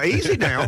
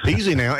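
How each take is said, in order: First: A playful easy now, pitched up; sly mock caution; teasing warning. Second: Said in the usual way. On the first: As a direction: rib him gently with easy now. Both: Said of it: "That was a little bit of a dig".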